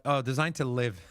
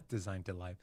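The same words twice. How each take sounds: First: Said in the usual way. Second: Laughing through the words, much softer. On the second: Real, not acted. Host rereading a product blurb, laughing at his own stumble. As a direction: chuckle the line out at your own slip.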